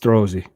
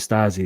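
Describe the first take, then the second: First: The name sounds like 'Strozzi', with the 'tr'. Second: The name sounds like 'Stasi', without the 'tr'. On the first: The speaker calls it right. "It's Strozzi" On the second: The speaker calls it wrong. "I'm saying Stasi"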